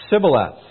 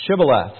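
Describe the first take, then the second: First: "Sibboleth" said with a plain s, no sh; the Ephraimite's wrong "Sibboleth", starting on s. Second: "Shibboleth" said with a clear sh sound at the start. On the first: Ephraimite failing the test, saying "Sibboleth" with s. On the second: Gileadites testing the fugitive, saying "Shibboleth" with sh. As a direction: open "Shibboleth" on a firm sh. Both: A narrator's reading. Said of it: "for he could not frame to pronounce it right".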